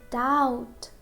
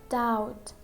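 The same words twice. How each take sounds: The two takes are said the same way.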